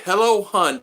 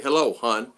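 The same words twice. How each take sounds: First: High, loud, syrupy hello hun; mocking a stranger's syrupy Facebook greeting; mock sultry greeting. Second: Said in the usual way. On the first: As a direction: ham up the flirty stranger's voice. Mocking a stranger's flirty message.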